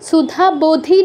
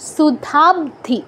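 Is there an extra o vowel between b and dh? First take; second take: yes; no. First: An o vowel is inserted between b and dh. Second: The b and dh join with no vowel between. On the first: The speaker calls it wrong. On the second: The speaker calls it right.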